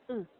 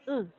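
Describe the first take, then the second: First: The vowel is said softly and weakly. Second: The vowel is said louder and stronger. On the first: The vowel is unstressed. "For the schwa, you can say" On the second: The vowel is stressed. "just make it louder"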